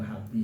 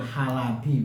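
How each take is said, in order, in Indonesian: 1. Tidak terdengar bunyi vokal di antara L dan B. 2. Terdengar bunyi vokal di antara L dan B. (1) "iskanul lami itu membaca sukun lamnya" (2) "bi fathil lam"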